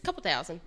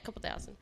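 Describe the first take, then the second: First: Said in the usual way. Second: Whispered, embarrassed repeat; sheepish whisper. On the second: Real, not acted. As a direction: mutter it under breath, guilty.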